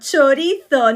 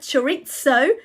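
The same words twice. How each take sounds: First: The word is pronounced with Spanish sounds. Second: The word is pronounced with English-like sounds. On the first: The speaker calls it right. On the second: The speaker calls it wrong.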